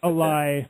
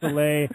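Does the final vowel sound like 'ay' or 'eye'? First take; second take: eye; ay. First: The final vowel sounds like 'eye'. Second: The final vowel sounds like 'ay'. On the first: The speaker calls it wrong. "not a lie" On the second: The speaker calls it right. "It's a lay"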